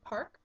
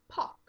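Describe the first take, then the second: First: The R sound is pronounced. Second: The R sound is dropped.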